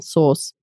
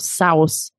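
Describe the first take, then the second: First: The vowel sounds like 'or' in source. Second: The vowel sounds like 'ow' in cow. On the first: The speaker calls it right. "it's actually pronounced exactly the same, sauce" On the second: The speaker calls it wrong. "I hear this sow because of the SAU, they think of sow. Yeah. So I hear this sort of sauce"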